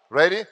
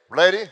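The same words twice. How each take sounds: The two takes are said the same way.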